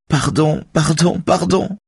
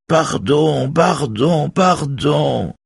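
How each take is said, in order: First: High, frightened pleading, drawn out; scared woman's high-pitched plea; trembling with fear. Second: High mocking falsetto mimicry; thin head-voice imitation, far above normal. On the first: A narrator's reading. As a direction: beg in terror at the top of the voice. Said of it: "Sa voix tremble de peur". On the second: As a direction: squeal it in a put-on falsetto. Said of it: "dit Raphaël d'une voix de fausset".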